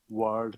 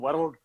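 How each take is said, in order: First: The R in the word is not rolled. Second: The R in the word is rolled. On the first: The speaker calls it right. "You should talk it like world" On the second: The speaker calls it wrong. "we Glaswegians we roll our R's"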